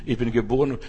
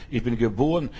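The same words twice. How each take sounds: The two takes are said the same way.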